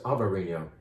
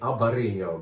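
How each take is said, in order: First: The grape name is said the Portuguese way. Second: The grape name is said the Spanish way. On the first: The wine comes from Portugal. "but this is" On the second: The wine would come from across the border. "If it was over the Minho River from Portugal, we'd say"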